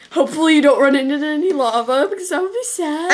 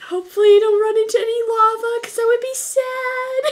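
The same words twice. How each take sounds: First: Cheerful gamer warning; Cupquake impression. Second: High, bright YouTuber voice; chirpy and sweet, much higher; Cupquake impression. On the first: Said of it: "Flashback to, uh, Ice Cupquake". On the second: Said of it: "Uh, Tiffany".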